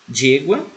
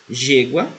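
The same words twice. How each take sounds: The two takes are said the same way.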